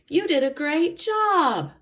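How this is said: It is said in an excited, lively tone. The speaker calls it right. "because I'm showing excitement"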